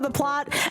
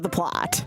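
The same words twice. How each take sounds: First: It is said in a plain, literal tone. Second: It is said in a suggestive, ironic tone. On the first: The story itself is what matters. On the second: Something other than the story is what matters.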